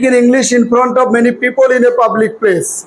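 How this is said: It has a flat, Bengali-style English accent. "বাংলাদেশিদের মতো পড়েছি।"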